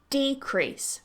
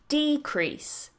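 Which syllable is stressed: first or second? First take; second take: first; first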